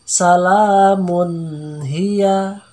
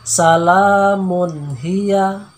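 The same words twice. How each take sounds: First: The n sound is held longer than one beat. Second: The n sound is held short, one beat. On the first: The speaker calls it wrong. "Jangan dibaca salamun hiya. Nah, tidak boleh ya" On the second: The speaker calls it right. "Jadi kita baca hanya selama satu ketukan saja"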